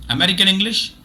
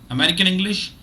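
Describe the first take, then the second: No difference in how they are said.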